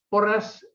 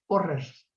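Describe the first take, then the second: First: The final s is voiceless. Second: The final s is voiced. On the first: This is the usual Spanish pronunciation. "entre nosotros, la S es una S sorda" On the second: This is how a Catalan speaker says it. "pronuncia una S sonora. Es algo así como"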